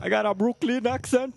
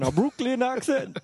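First: Playful put-on Brooklyn accent, pitched up. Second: Playful Brooklyn twang, pitched high; Brooklyn accent. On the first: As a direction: say it like a New Yorker from Brooklyn. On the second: Pretend.

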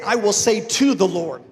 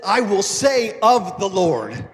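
First: "to" stressed with a falling tune, as the wrong version. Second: "of" drawn out slowly and stressed with a falling tune; slow down and hit "of" in "I will say of the Lord". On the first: Pastor showing the version David didn't say, stress on "to". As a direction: lean on "to" in "I will say to the Lord". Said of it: "he didn't say". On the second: Pastor showing the congregation David's actual words, slow with "of" stressed. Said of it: "He said". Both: Shown as a demonstration.

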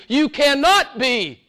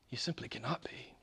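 First: High, slow, forceful CANNOT; emphatic. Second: Quiet, intimate repeat; hushed. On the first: Preacher insists to the congregation, forceful. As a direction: hammer the word cannot. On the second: Preacher repeats softly to the congregation, hushed. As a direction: pull back to a near murmur. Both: Acted.

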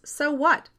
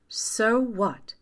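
First: High-pitched, exasperated question; huffy. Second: Lightly voiced mother, pitch raised; remembered mother. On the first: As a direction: toss it out in a raised, huffy voice. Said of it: "June's mother huffed miserably". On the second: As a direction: echo a mother's dismissal from memory. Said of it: "my mother had said all those years ago". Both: A narrator's reading.

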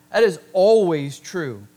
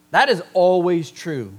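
First: "That" hit hard at the start, louder line; stress on THAT. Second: "is" leaned on, firm falling close; stress on IS. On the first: Preacher repeating the truth, punching "That". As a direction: open with a punched "That" to drive it home. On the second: Preacher telling the church, firm stress on "is". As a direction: press the word "is" so it sounds certain. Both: Shown as a demonstration. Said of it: "Write that down".

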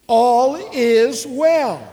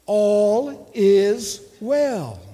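First: Loud, higher, drawn-out declaration; emphatic preacher rallying the congregation; with conviction. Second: Slow, drawn-out "All is well"; louder-leaning, deliberate call for repetition; measured declaration. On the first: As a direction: say it like you truly believe it. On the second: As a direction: lead the congregation slowly, each word held. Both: Shown as a demonstration. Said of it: "Say it like you believe it".

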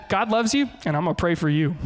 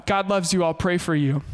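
First: A touch of smug, pointed blessing; mildly snide God loves you; preacher mocking his own passive-aggressive past self. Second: Said in the usual way. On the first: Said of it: "that was super awful". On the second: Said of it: "honest story of a failure".

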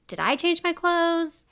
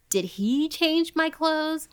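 First: High, wondering question leaning on I; puzzled stress on I. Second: High, slow question leaning on HE; alarmed stress on HE. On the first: Victim noticing different clothes, puzzled stress on I. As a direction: question herself, picking out the word I. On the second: Victim suspecting her captor, stress on HE. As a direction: draw out the question, pointing at HE. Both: Retold or imitated. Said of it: "So she was like".

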